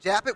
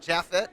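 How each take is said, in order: First: The middle consonant is a P sound. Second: The middle consonant is an F sound. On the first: "with a P" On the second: "like with an F"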